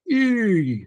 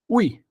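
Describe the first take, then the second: First: It is pronounced as a plain 'i' sound. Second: It is pronounced as 'ui', like in cuidado. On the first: The speaker calls it wrong. "você não vai falar assim, I, não" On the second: The speaker calls it right. "você vai falar ui, ui, como em cuidado"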